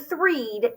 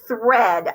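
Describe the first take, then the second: First: The vowel is a long ee sound. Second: The vowel is a short e sound. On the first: The speaker calls it wrong. "this word would not be threed" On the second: The speaker calls it right. "it would be thread"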